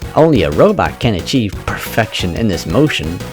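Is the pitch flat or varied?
varied. The pitch rises and falls naturally.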